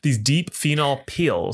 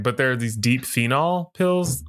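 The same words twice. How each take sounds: First: "peels" with a long ee, said slowly; slow down and stretch "peels"; corrected to peels. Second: "pills" with a short southern vowel; slip to pills. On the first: Shown as a demonstration. Host correcting her slip for listeners, careful long "peels". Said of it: "now pills versus peels". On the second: Real, not acted. Host describing online videos, accidentally saying "pills" for peels. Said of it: "uh, peels. God, I hate it".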